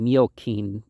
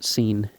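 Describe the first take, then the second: First: The last syllable starts with a K sound. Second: The last syllable starts with an S sound. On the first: This follows the Latin pronunciation. The speaker calls it wrong. "one would think that would be Miokeen" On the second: This is the usual English pronunciation. The speaker calls it right. "we pronounce it seen"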